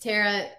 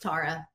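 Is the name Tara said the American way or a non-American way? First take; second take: American; non-American. First: The name is pronounced the American way. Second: The name is pronounced a non-American way. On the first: This is how it is said in the United States. "In the United States, it's Tara" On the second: This is how it is said outside the United States. "Outside of the U.S., it's Tara"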